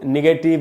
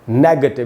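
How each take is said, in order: First: The second vowel is a full vowel. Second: The second vowel is a short reduced schwa. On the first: The speaker calls it wrong. "इसको भी हम लोग निगेटिव नेगेटिव ऐसे करके बोल लेते हैं" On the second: The speaker calls it right. "ग के बाद आधा अ है"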